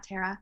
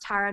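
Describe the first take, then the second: First: The first syllable does not sound like 'tar'. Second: The first syllable sounds like 'tar'. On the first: The speaker calls it wrong. "not Tara" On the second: The speaker calls it right. "it's pronounced Tara, Guitar, star"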